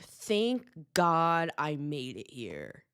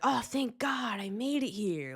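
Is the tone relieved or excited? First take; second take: relieved; excited. First: It sounds relieved rather than excited. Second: It sounds excited and upbeat.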